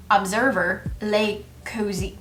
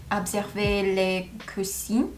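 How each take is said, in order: First: Observer as English ub-ZER-ver, American R; English-accented observer les cousins, cousins as COH-zee; full English accent. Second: Observer in French, ob-ser-VAY with throaty R; careful French observer, ending in AY; French pronunciation. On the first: Learner giving in to her English brain, observer in full English accent. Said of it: "Pronounce it with a full English accent". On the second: Learner tentatively trying the sentence, observer pronounced French as ob-ser-VAY. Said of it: "I just wanna say". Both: Shown as a demonstration.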